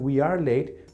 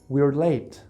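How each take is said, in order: First: The verb is said as a separate full word. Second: The verb is contracted onto the pronoun.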